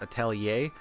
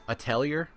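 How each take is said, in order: First: The word is pronounced the French way. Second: The word is pronounced the common way. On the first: "that word is actually French and it's supposed to be pronounced atelier" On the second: "the more common pronunciation of that word is like um"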